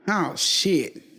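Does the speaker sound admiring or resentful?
resentful. It sounds resentful and displeased. The person is unwelcome and resented. "same words, but completely different connotations"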